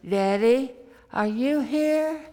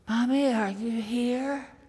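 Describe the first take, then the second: First: It is said a little more loudly. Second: It is said in a quiet little voice.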